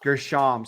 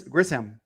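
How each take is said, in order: First: Grisham, with sh in the middle; corrected pronunciation. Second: Grissom, said with a hissed s, no h sound; mispronounced Grissom. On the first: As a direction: say Grisham with a clear sh. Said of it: "I believe it's Grisham". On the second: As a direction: say Grissom instead of Grisham. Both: Real, not acted.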